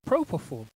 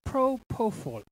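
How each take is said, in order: First: "propofol" run together more smoothly and quickly; second attempt at pronunciation. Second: "Propofol" in separate, careful syllables; sounding out a word. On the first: Host retrying a drug name, sounding it out more fluently. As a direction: try "propofol" as one word. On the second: Host unsure how to pronounce a drug name, sounding it out. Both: Real, not acted. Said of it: "how you pronounce this".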